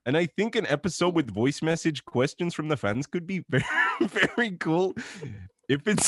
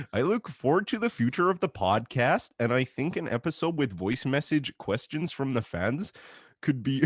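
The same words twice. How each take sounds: First: Hammed-up Canadian accent, cracking into laughter. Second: Sliding into a mock Eastern European accent; a Canadian read that drifts Eastern European. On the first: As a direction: push the Canadian voice while barely holding it together. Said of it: "I can't do the voice for too long". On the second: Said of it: "slipped into some, like, Eastern European accent then".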